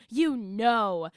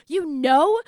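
First: YOU leading, then a falling tune on know; exasperated falling echo. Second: KNOW higher, rising into a question; incredulous echo question. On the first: Daughter challenging mom's calm answer, exasperated falling know. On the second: Daughter echoing mom's answer, incredulous rising KNOW. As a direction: throw "know" back as a disbelieving question. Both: Acted.

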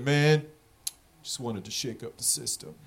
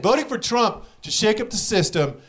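First: Very soft, low excuse; mock sheepish mumble. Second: Said in the usual way. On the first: Dispensary manager explaining his vote, soft mock mumble. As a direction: let it fall away into a quiet, low mumble. Voices Trump-voting dispensary manager's lame answer.

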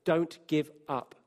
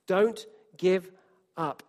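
First: Said in the usual way. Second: Louder, urging repeat; emphatic. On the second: Shown as a demonstration. Preacher urging the church, louder, not to give up. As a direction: press the words out with force.

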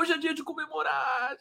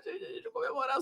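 First: Much higher, gleeful shout; celebrating. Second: Very high, breathy squeal, dropping softer; celebrating. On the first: Host celebrating the politician's fall, high gleeful cry. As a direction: crow it out in triumph. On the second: Host repeating the celebration to viewers, high soft squeal. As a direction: squeal it like you can't contain the joy. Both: Real, not acted. Celebrating Dallagnol losing office.

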